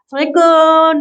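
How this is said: The greeting sounds warm and friendly.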